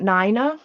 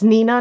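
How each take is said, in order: First: "Nina" with NYE, like nine-uh; "Nina" pronounced nigh-nuh, long i; Nina said wrong. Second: "Nina" with NEE, like knee-nuh; "Nina" pronounced nee-nuh, short ee; Nina said right. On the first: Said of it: "It's Nina". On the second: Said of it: "not Nina". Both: Shown as a demonstration.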